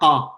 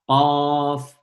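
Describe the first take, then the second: First: The word ends without a final f sound. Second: The word ends with a final f sound. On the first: The speaker calls it wrong. "On ne dit pas Qa" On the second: The speaker calls it right. "la prononciation Qaf"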